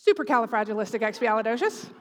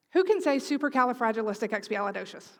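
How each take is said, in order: First: Supercalifragilisticexpialidocious rattled off fast and loud as a backwards party trick; backwards speech. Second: Said in the usual way. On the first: Shown as a demonstration. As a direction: blurt Supercalifragilisticexpialidocious quickly, loudly, claiming it's backwards. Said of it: "who can say it backwards".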